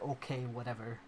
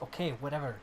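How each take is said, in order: First: It is said in a neutral tone. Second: It is said in an angrier tone.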